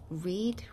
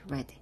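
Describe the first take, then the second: First: It is pronounced as the present-tense form. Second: It is pronounced as the past-participle form. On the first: The action happens now. "첫 번째 현재일 경우, 현재형에는 read라고 발음을 하고" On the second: The action is completed. "두 번째, 세 번째는 다 read로 발음이 됩니다"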